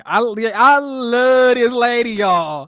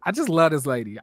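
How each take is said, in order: First: Gushing. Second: Said in the usual way. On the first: Real, not acted. Gushing over a cast member.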